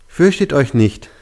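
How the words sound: It sounds flatly read out from a page.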